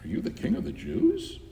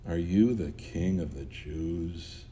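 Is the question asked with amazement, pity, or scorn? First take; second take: amazement; pity. First: The question sounds amazed and astonished. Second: The question sounds pitying and sorrowful. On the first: The asker can hardly believe the claim. "if he asked it in amazement" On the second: The asker feels sorry for the one addressed. "Or out of pity"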